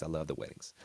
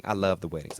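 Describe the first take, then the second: First: Quieter, lower second take; softer repeat. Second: Said in the usual way. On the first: Shown as a demonstration. Host backing off his wedding joke, softer and lower. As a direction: say "I love the weddings" again softly and lower. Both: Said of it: "Just kidding".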